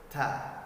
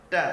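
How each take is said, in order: First: The t is released with a strong puff of breath. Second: The t is released with no puff of breath. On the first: "terlalu berlebihan" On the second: "tanpa hembusan angin"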